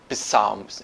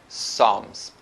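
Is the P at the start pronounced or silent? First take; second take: pronounced; silent. First: The initial P sound is pronounced. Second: The initial P sound is silent. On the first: The speaker calls it wrong. "Eu não falo Psalms" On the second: The speaker calls it right. "eu falo Psalms"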